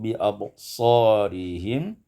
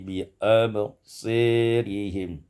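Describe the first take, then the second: First: The vowel after the s is an open a. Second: The vowel after the s leans toward e.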